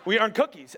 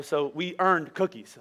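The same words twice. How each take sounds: First: "we" hit with a chuckle; amused emphasis on "we" in "we earned cookies"; laughing repeat. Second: Slow, weighty "earned"; drawn-out "so we earned cookies" with the weight on "earned"; stress on earned. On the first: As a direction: say "we earned cookies" again through a laugh, punching "we". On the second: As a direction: lean hard on "earned" and take it slowly. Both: Shown as a demonstration.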